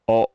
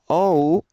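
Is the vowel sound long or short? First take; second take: short; long. First: The vowel is clipped short. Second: The vowel is drawn out long. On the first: The speaker calls it right. "it's short" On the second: The speaker calls it wrong. "not quite as long as the English o"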